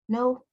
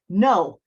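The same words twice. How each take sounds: First: It is said in a small, meek, girlish voice. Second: It is said in a loud, forceful, roaring voice. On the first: The speaker lacks authority. The speaker calls it wrong. "a little girl saying no" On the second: The speaker means it with authority. The speaker calls it right. "came out of me like a roar"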